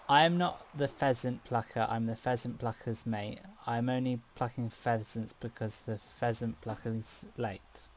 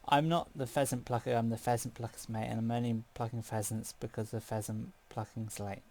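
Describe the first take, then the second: First: It is said at a normal pace. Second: It is said about three times as fast.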